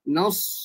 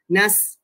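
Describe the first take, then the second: First: The n sounds light and the s heavy. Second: Both the n and the s sound light. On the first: The speaker calls it right. "Nipiskan huruf yang nipis, ketebalkan huruf yang tebal" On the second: The speaker calls it wrong. "kita menipiskan sampai sad pun jadi nipis ... Dia akan jadi huruf sin"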